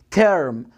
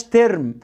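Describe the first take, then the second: First: "تيرم" lower, with an r-coloured vowel; correct English R. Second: "ترم" with a plain "e" before a separate R; mispronounced vowel. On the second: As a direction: say "ترم" the common Arabic-accented way. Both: Shown as a demonstration. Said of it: "ما اسمهاش ترم".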